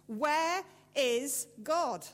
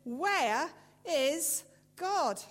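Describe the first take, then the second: First: Loud, slow and stern; preacher repeats his question, sterner. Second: Slow booming shout, higher and louder; furious preacher shouts the question at the boy. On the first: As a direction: drag out each word as a warning. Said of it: "in an even sterner voice". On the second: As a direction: bellow it while shaking a fist. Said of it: "raised his voice and shook his fist and shouted". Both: A narrator's reading.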